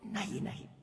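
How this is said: The voice chokes and the words come out broken. The refusal is overwhelmed by ecstasy. "the voice chokes"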